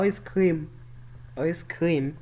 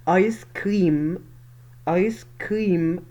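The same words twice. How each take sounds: First: آيس كريم run together quickly, the common wrong way; mistaken pronunciation. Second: آيس كريم slow, with long "eye" and long "reem"; corrected English pronunciation. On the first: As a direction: say آيس كريم short and unstretched, as people wrongly do. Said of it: "في ناس ياما بتقول عليها ... غلط". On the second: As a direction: stretch both words of آيس كريم clearly. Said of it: "مسموش كده في الإنجليش". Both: Shown as a demonstration.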